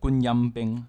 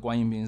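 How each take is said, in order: First: The word is pronounced the Cantonese way. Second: The word is pronounced the Mandarin way. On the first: "粤语上面就有一个词……它是都是一声" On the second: "我们讲中文的话是讲观音兵"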